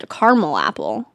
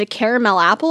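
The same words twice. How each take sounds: First: Caramel said as CAR-mul; two-syllable caramel. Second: Caramel said as CARE-uh-mel; three-syllable caramel. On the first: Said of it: "I say it's a caramel apple". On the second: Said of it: "People say, like, caramel or caramel". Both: Shown as a demonstration.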